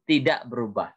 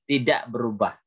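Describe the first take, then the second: Both takes have the same delivery.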